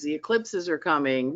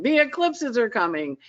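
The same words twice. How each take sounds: First: Said in the usual way. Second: Higher, ringing call of alarm; herald's cry. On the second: Acted. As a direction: call it out like a town crier. Repeated announcement, Paul Revere style.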